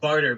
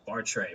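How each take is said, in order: First: The name ends in an 'er' sound. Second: The name ends in an 'ay' sound. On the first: The speaker calls it wrong. "I said barter, but that's not actually what I think" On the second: The speaker calls it right. "there's an accent on the e or something. You actually pronounce it"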